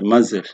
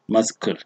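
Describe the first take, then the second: First: The c is not pronounced. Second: The c is pronounced as a k sound. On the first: The speaker calls it right. "but muzzle. So you can see that the C there is silent" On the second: The speaker calls it wrong. "It is not muscle"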